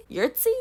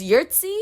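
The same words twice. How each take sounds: First: "Yurtsi" as a high-pitched question; doubtful repeat. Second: "Yurtsi" stated with a lifted ending; name introduced. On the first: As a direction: question your own "Yurtsi" with pitch shooting up. Doubting own pronunciation of name. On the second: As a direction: introduce "Yurtsi" at normal volume, slightly raised. First try at unfamiliar name. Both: Shown as a demonstration.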